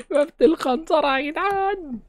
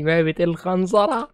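First: Much higher, slow, stretched put-on voice; mock announcer voice. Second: Said in the usual way. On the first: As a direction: draw out the map name in a silly voice. Names the map, then repeats it. (صوت مستعار عالي وبطيء بتهريج)

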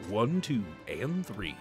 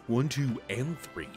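The two takes are said the same way.

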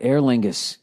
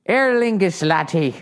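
First: Said in the usual way. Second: Higher-pitched mock Irish lilt; hammed-up, badly faked Irish brogue; bad Irish accent. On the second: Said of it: "shit about my bad accent".

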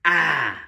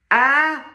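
First: "A" as a long, falling "ah". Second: "A" as a high, rising "ah". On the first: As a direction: let "A" slide downward as "ah". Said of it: "and this one". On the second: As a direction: lift "A" sharply upward as "ah". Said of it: "If I put the accent up here". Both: Shown as a demonstration.

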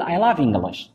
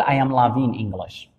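First: Said in the usual way. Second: I am loving English said very slowly; slow wrong example. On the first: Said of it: "فغادي نقول". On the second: Shown as a demonstration. Teacher slowly shows the sentence students must not say. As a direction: spell out the mistake word by word. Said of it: "ما نقدرش نقول".

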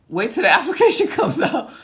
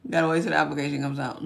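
First: High, loud, bouncy call; playful exclamation. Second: Said in the usual way. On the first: Real, not acted. Playful reply to viewer, then repeated plainly.

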